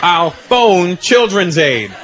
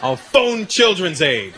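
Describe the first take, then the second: First: Put-on slow, emphatic repeat of a kid's bluff; insistent threat. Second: Put-on slow, measured kid's warning; deliberate threat. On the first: Boy repeats his threat to doubting dad, slow and insistent. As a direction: punch out each word slowly and firmly. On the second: Boy tries a threat on his dad, slow and deliberate. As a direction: deliver the bluff slowly, word by word. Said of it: "I go".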